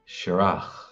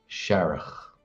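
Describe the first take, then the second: First: The stress is on the second syllable. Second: The stress is on the first syllable. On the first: "My pronunciation is Kerry Irish or Munster Irish" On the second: "with the emphasis on the first syllable"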